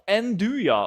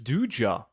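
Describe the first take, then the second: First: The word begins with an N sound. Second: The word begins with a D sound. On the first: The speaker calls it wrong. "like this" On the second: The speaker calls it right. "You don't pronounce the N. So just Duja"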